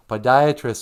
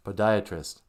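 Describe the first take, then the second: First: "Podiatrist" said louder and firmly, falling, to teach the word; emphatic "Podiatrist". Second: Said in the usual way. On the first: Shown as a demonstration. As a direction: spell out "Podiatrist" to sweetie with a firm fall. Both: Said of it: "for the podiatrist".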